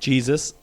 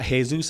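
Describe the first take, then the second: First: The name is said with English sounds. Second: The name is said with Spanish sounds.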